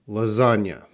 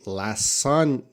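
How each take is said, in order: First: The word is said without an S sound. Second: The word is said with an S sound. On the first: The speaker calls it right. "So the pronunciation is lasagna" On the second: The speaker calls it wrong. "We don't say we don't say lasagna. No, no S"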